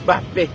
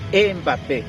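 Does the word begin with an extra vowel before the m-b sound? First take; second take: no; yes. First: It starts directly with a burst from the lips. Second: It starts with an added vowel before the lips. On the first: The speaker calls it right. "vamos a decir Bapé, ba, ba, con una explosión de los labios" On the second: The speaker calls it wrong. "y no Mbappé"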